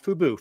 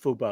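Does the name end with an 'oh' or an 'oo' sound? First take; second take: oo; oh. First: The name ends with an 'oo' vowel sound. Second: The name ends with an 'oh' vowel sound. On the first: The speaker calls it wrong. "I always say it wrong, not Fubu" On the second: The speaker calls it right.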